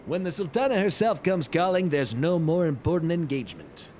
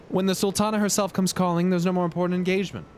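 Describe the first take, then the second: First: Hammed-up manly lord with a put-on timbre; chosen Godbert voice. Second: Lightly voiced lord, pitched a little higher; brisk, courtly welcome with a light character touch; first try at Godbert. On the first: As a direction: deliver a courtly welcome as a man's man. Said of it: "that one is goddamn perfect". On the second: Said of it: "What kind of accent does this guy have?".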